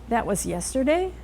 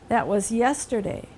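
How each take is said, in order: First: The pitch rises at the end. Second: The pitch falls at the end. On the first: It is a question. "if you let your pitch rise at the end ... you're asking a question" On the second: It is a statement. "Those are declarative sentences, telling sentences. They end in a pitch fall"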